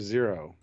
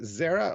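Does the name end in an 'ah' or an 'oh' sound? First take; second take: oh; ah. First: The name ends with an 'oh' vowel. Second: The name ends with an 'ah' vowel.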